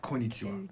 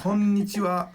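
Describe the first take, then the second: First: Konnichiwa with only one n; single short n. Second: Konnichiwa louder, with the n held long; double n. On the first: Teacher warning what it's not, konnichiwa with one n. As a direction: say konnichiwa as ko-nichiwa. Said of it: "It's not konnichiwa". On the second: Teacher correcting learners, konnichiwa with doubled n. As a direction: hold both n's in konnichiwa. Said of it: "There's two N's in there". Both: Shown as a demonstration.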